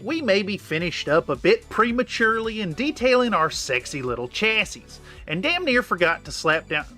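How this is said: There is a long pause after chassis.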